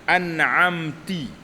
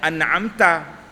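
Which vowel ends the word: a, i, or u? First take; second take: i; a. First: The word ends with an i vowel. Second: The word ends with an a vowel. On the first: The speaker calls it wrong. "Seperti mengucapkan an'amti" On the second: The speaker calls it right. "sepatutnya an'amta"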